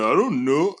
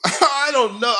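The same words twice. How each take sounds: First: Said in the usual way. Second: Mockingly echoing "I don't know", higher and louder; sarcastic repeat of Albert's excuse. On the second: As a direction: parrot his "I don't know" back with scorn.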